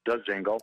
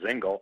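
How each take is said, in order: First: The name starts with a D sound. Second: The name starts without a D sound. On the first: The speaker calls it right. "but it is DeZingle" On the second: The speaker calls it wrong. "some people have assumed that the D is silent and they call him Zingle"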